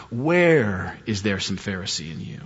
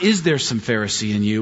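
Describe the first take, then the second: First: Where lowered and drawn out, softer and slow; stress on where. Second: Said in the usual way. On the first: Shown as a demonstration. Pastor stressing the changed question, slow and soft. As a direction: lean slowly and softly on Where. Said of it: "this morning I changed it". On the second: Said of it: "which was my original question".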